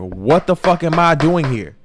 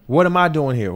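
First: Louder, slower exasperated demand; frustrated cry asking God why you're stuck; exasperated outcry to God. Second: Puzzled question to God, a little louder; bewildered plea to God. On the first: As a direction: throw the question up at God, fed up. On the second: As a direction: ask heaven what you're doing there. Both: Retold or imitated. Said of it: "looking at God like".

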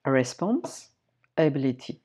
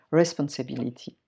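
First: "Responsibility" drawn out slowly syllable by syllable in English; English word, broken down slowly. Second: "responsibility" said in English with a French accent; English word. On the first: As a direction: take "Responsibility" apart slowly, English style. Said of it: "décortiquer le mot anglais". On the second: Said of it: "J'aime prendre le mot anglais et décortiquer le mot anglais". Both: Shown as a demonstration.

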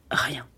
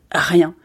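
First: Dropped to a soft, low "rien."; soft, low trailing-off "rien."; hushed. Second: Said in the usual way. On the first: A narrator's reading. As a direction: let "rien." fall away almost to nothing. Repeated word, first dropped low.

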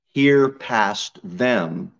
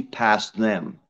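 First: Hear past them drawn out very slowly, each word weighted; stress on hear past them. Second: Said in the usual way. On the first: Shown as a demonstration. Preacher urging the church to hear past him, slow and stressed. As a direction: lean on past, slow and deliberate.

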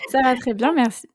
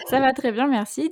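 First: Giggling through an English-free French greeting, louder; breaking into laughter mid-greeting; laughing retake. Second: Said in the usual way. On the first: Real, not acted. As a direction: say it while still laughing at the slip. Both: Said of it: "On la refait".

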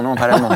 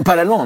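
First: Said in the usual way. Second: Laughing through the correction, higher; laughing self-correction. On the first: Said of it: "Euh, pas l'allemand". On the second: Real, not acted. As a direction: laugh it off, catching yourself.

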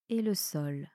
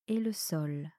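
Both takes have the same delivery.

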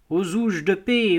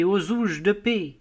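First: Put-on old cobbler crying out. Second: Put-on old cobbler crying out again. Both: A narrator's reading. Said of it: "Un vieux cordonnier juif criait".

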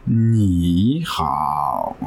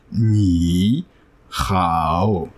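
First: "ni hao" run together quickly, "ni" rising and the dip only on "hao"; correct tone sandhi. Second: "ni" drawn out slowly and separately, then "hao" with its own full dipping tone; wrong split tones. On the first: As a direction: glide "ni" up into a dipping "hao" in one breath. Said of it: "tu vas faire un ni hao, tu vois, un truc comme ça". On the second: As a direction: say "ni" and "hao" as two slow separate third tones. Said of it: "tu vas pas dire ni, hao". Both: Shown as a demonstration.

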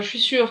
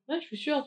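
First: Said in the usual way. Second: Ouais, je suis sûre said higher and much softer; a playful, hushed sure; soft mock yes. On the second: Narrator mimics her hushed yes to the girl, soft. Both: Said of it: "tu vois, en mode".

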